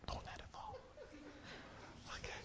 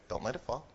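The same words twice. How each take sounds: First: Tense whispered warning. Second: Said in the usual way. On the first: Real, not acted. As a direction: whisper it, don't let it fall. Whispered warning during game.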